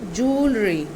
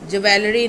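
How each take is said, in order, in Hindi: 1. शब्द 'joo' की ध्वनि से शुरू होता है। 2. शब्द 'jwel' की ध्वनि से शुरू होता है। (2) "ज्वेलरी नहीं"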